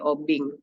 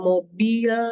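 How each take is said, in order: First: The word ends with an ng sound. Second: The word ends with an l sound. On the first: The speaker calls it wrong. "le itu diganti dengan eng, ya, menjadi obing" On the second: The speaker calls it right. "misalnya mobil"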